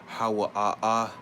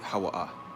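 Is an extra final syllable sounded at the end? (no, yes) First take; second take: yes; no. First: An extra final syllable is sounded at the end. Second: The word ends without the extra final syllable. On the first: The speaker calls it wrong. "instead of saying Hawa ah ah" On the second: The speaker calls it right. "you just say Hawa ah"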